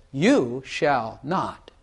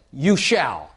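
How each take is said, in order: First: Slow promising tone; gentle promise. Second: "You shall" as a firm command, falling hard; stern command. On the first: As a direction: draw out "You shall not" slowly like a kind assurance. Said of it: "But if I say it like this". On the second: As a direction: lay down "You shall" as an order. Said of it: "If I say it like this". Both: Shown as a demonstration.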